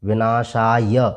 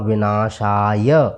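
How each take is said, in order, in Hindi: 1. शब्द एक छोटे अंतिम स्वर के उच्चारण के साथ समाप्त होता है। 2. शब्द एक छोटे अंतिम स्वर के उच्चारण के साथ समाप्त होता है।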